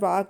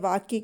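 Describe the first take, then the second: First: The word ends with a plain k. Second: The word ends with a ky cluster. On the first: The speaker calls it wrong. "वाक बोलना" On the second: The speaker calls it right. "वाक्य के स्थान पर"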